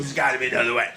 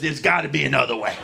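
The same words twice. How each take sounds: First: Gruff dad voice. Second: Low, quick, quiet criminal dad; gruff dad voice. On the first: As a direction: lower and quieter, a murmured offer. Dad repeats the plea. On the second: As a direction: growl it like a shady dealer. Dad pleading with principal. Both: Retold or imitated.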